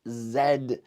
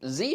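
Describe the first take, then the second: First: The letter is said the Canadian way, zed. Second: The letter is said the American way, zee.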